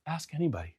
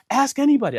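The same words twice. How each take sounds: First: Very soft, unbothered reply; calm echo. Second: High-pitched, insistent appeal; imitated frantic appeal. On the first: Retold or imitated. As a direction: hand it back quietly, unruffled. His calm echo of the line. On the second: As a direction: mimic the flustered accuser, pitched way up. Frantic man's take of the line.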